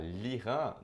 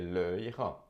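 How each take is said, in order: First: The article's vowel is dropped and joined to Iran. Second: The article's vowel is kept before Iran. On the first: The speaker calls it right. "É mais fácil falar" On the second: The speaker calls it wrong. "do que"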